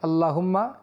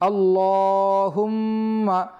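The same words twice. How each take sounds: First: It is said quickly with a clipped, rushed pronunciation. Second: It is said slowly with a full, careful pronunciation. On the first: The speaker calls it wrong. "তাড়াতাড়ি পড়তে গিয়ে আল্লাহুম্মা এরকম না পড়ি" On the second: The speaker calls it right. "সুন্দর করে উচ্চারণ করি"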